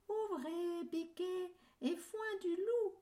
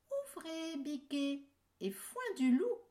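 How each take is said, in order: First: High fake mother goat voice; wolf faking a sweet high voice; wolf imitating the goat. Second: Put-on high sing-song call to the kids; mother goat calling. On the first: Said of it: "en imitant la voix de la chèvre". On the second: Mother goat's password call.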